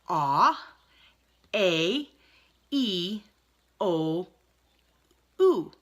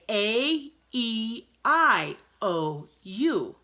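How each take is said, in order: First: The vowels are named with Italian vowel sounds. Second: The vowels are named with English letter sounds. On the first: "but they say" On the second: "We say"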